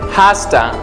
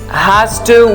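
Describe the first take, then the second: First: The words are reduced and run together. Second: Each word is said fully and separately. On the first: "we say has to" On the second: "Instead of has to"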